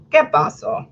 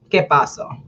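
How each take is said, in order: First: ¿Qué pasó? whispered, higher; whispered que paso. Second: Said in the usual way. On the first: Real, not acted. Whispering ¿Qué pasó? to the audience, higher. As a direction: breathe it out as a whisper. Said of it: "unvoiced repeat". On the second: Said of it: "Spanish aside".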